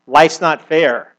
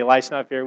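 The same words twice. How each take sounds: First: Drawn-out, louder Life's not fair, each word leaned on; slow sulky complaint. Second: Said in the usual way. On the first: Retold or imitated. Preacher mocking the modern complaint, slow and leaned on. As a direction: sulk it slowly like a hard-done-by grownup.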